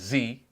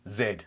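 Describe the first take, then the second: First: The letter is said as zee. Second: The letter is said the British way, zed.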